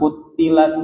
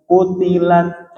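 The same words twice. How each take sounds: First: Kutilat with a doubled, stressed t, the wrong way. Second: Kutilat slow, with a single light t; no shadda. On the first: Teacher imitates the student's doubled t. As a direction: put a shadda on the t of kutilat. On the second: Teacher shows the correct single t slowly. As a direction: say kutilat with one clean t. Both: Shown as a demonstration. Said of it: "jangan ada tasdid".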